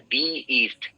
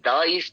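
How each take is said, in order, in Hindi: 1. 'the' शब्द को 'dee' बोला जाता है। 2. 'the' शब्द को 'duh' बोला जाता है। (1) "इसको दी प्रोनाउंस करना है" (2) "द ईस्ट नहीं होता है"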